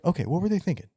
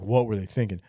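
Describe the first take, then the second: First: It sounds genuinely curious and open. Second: It sounds scornful and dismissive.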